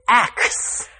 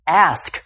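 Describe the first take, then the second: First: The k sound comes before the s sound. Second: The s sound comes before the k sound. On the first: The speaker calls it wrong. "Too often I hear people say axe" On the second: The speaker calls it right. "another frequently mispronounced word"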